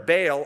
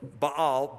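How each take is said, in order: First: "Baal" as BAYL; one-syllable variant. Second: "Baal" as bah-AHL; two-syllable variant. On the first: Teacher explaining that term, "Baal" pronounced BAYL. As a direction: say "Baal" to rhyme with "pale". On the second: Teacher offering the other form, "Baal" pronounced bah-AHL. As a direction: say "Baal" with two ah vowels, stressed last. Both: Shown as a demonstration. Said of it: "that term Baal or".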